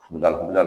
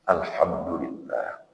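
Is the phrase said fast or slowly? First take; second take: fast; slowly. First: It is rattled off quickly, several times in a row. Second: It is said slowly and deliberately, once. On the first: "Oh, cepat-cepat" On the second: "Mengucap alhamdulillah juga begitu"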